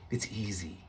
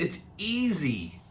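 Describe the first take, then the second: First: Much softer, lower repeat; soft low echo. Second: Slow, a bit higher; light insistence. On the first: Servant softly coaxing Naaman, low and hushed. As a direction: whisper it back down. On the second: Servant coaxing Naaman, slow and light. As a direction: press it gently. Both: Shown as a demonstration.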